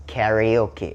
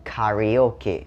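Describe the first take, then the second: First: "karaoke" American style, KAE-ree-OH-kee; American karaoke pronunciation. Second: "karaoke" British style, KAH-ree-OH-kee; British karaoke pronunciation. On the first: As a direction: front AE vowel at the start of "karaoke", as in America. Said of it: "ถ้าเป็นอเมริกาจะออกเป็นสระแอ". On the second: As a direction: open the first vowel of "karaoke" to AH, as in Britain. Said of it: "ถ้าเป็นสำเนียงคนอังกฤษ". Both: Shown as a demonstration.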